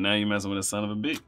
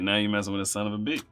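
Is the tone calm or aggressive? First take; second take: calm; calm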